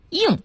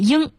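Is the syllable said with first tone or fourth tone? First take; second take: fourth tone; first tone. First: It is said with a falling tone. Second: It is said with a high level tone. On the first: This is the newly standardized reading. "现在都要变成应四声" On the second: This is the older standard reading. "过去读一声"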